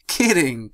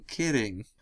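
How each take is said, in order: First: Said in the usual way. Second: Quieter second kidding, falling away; soft trailing repeat. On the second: Acted. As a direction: let the second kidding fade. Dash backs off joking.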